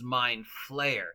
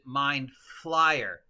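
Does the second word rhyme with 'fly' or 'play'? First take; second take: play; fly. First: The second word has the vowel of 'play'. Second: The second word has the vowel of 'fly'. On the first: "the correct pronunciation is mind flayer" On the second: "I pronounce it mind flyer"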